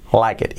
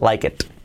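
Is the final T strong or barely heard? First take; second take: barely heard; strong. First: The final T is barely heard. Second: The final T is clearly released. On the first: The speaker calls it right. "la última T, que la pronunciamos muy, muy poco" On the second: The speaker calls it wrong. "no es like it"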